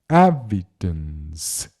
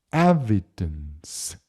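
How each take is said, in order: The two takes are said the same way.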